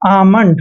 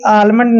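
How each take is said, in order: First: The L sound is left silent in the word. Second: The L sound is pronounced in the word. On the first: The speaker calls it right. "आमंड पढ़ते हैं" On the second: The speaker calls it wrong. "कभी भी आलमंड नहीं पढ़ते हैं"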